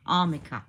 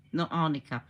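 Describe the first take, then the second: First: Armica said with an M, the right way; settling on armica with the M; corrected pronunciation. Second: Arnica said with an N, the wrong way; dismissing arnica with the N; rejected pronunciation. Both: Shown as a demonstration.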